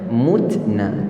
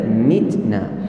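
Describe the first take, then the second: First: The first vowel is a rounded u sound. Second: The first vowel is a front i sound. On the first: This follows another reading tradition. "mereka baca mutna" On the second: This follows the reading tradition used here. "kita mitna"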